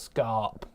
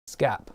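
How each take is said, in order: First: The vowel is drawn out long. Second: The vowel is kept short. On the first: The speaker calls it wrong. "It's not scarp" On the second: The speaker calls it right. "You're not elongating the A"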